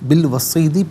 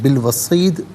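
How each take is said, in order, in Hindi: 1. शब्द छोटी i स्वर पर खत्म होता है। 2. शब्द व्यंजन d पर खत्म होता है। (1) "पढ़ेंगे" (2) "वफ़ की सूरत में"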